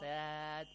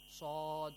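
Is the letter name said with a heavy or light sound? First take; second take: light; heavy. First: It sounds light, with a thin front vowel. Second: It sounds heavy, with a deep open vowel. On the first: The speaker calls it wrong. "This is wrong" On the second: The speaker calls it right. "Like sod"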